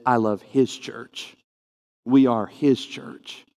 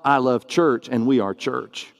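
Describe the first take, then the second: First: His church and We are his church spoken slowly and deliberately; stress on his. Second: Said in the usual way. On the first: Shown as a demonstration. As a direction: lean on the word his each time. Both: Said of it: "The point of emphasis is".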